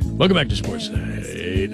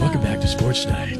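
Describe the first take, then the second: First: It is said in a smooth jazz DJ voice. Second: It is said in a hushed golf announcer voice.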